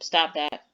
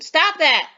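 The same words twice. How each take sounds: First: It is said flatly, like a plain statement. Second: It is said forcefully with strong emotion. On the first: It simply states something. "with a period, like a general statement" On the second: They must stop right now. "with some emotion"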